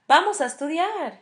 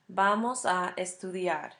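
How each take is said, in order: First: It is said in an inviting, suggesting tone. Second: It is said in a plain, informative statement tone. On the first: It proposes doing it together now. "that would mean let's study" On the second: It states a future plan. "would mean we are going to study in the future"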